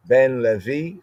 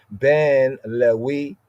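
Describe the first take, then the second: First: Said in the usual way. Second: Ben Lewi said slowly, Lewi with a w sound; Semitic Lewi. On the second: Shown as a demonstration.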